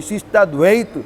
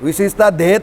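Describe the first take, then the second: First: The last word begins with a 'dv' cluster. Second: The last word begins with a plain 'dh' sound. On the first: The speaker calls it right. "દ્વૈત બોલવું બહુ અઘરું છે" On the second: The speaker calls it wrong. "વિશિષ્ટા ધૈત બોલે છે આપણે ત્યાં બધા"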